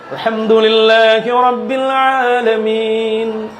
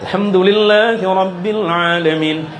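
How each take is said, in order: First: It is recited slowly and deliberately. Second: It is recited at a moderate pace. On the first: "Kalau tartil itu kan yang pelan" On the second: "Yang tadwir"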